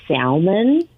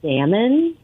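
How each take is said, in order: First: "salmon" slowly, with the L sounded: "sal-mon"; L pronounced in salmon. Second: Said in the usual way. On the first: Retold or imitated. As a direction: draw out "salmon" with an audible L, questioning rise. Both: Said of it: "he also pronounced the L in".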